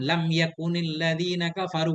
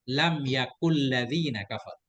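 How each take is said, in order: First: The n sound of yakun is kept. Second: The n sound of yakun is dropped. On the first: "Ada nun" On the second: "ada qiraah syad"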